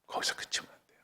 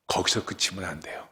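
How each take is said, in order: First: 거기서 그치면 안 돼요 whispered, all breath. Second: Said in the usual way. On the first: Real, not acted. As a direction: hush it to a whisper for weight. Whispered repeat. (거기서 속삭이듯 작게)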